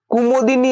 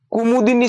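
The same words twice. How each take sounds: First: कुमोदिनी with o in the second syllable; mistaken pronunciation. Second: कुमुदिनी with u in the second syllable; correct pronunciation. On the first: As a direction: turn "mu" into "mo", कुमोदिनी. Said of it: "है वो गलत है". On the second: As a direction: sound "mu" in कुमुदिनी. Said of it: "कुमुदिनी शब्द बनेगा". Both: Shown as a demonstration.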